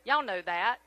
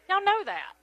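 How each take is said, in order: First: Said in the usual way. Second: Y'all know that, with know hit higher; emphatic repeat. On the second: Real, not acted. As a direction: punch know in Y'all know that, higher, falling at the end. Repeats line to crowd, emphatic.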